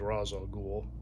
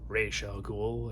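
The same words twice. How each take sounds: First: The first word sounds like 'Roz'. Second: The first word sounds like 'Raish'.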